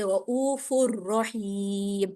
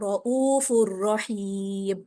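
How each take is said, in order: First: The n merges into the following r sound. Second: The same.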